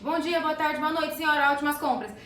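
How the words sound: It is said in a very joyful tone.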